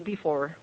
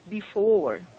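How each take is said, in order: First: The word is said quickly and clipped short. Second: The word is said slowly and drawn out. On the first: The speaker calls it wrong. "they do not say before" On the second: The speaker calls it right. "they try to make the words longer"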